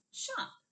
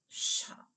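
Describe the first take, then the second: First: Said in the usual way. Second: "Shop" with a long sh at the start; drawn-out first sound. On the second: Shown as a demonstration. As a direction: hold the sh of "Shop" before the vowel. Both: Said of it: "We cut off the sh".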